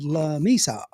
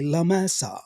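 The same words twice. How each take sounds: First: La Mesa said "lah MEE-sah"; La Mesa Anglicized, ee in Mesa; Anglo mispronunciation. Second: La Mesa said "lah MEH-sah"; La Mesa the Spanish way, open eh in Mesa; Spanish pronunciation. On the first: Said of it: "so they said La Mesa". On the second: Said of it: "not able to say La Mesa". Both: Shown as a demonstration.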